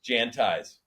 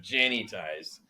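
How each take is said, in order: First: The name has no extra vowel sound inserted. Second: The name has an extra vowel sound inserted. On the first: The speaker calls it right. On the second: The speaker calls it wrong.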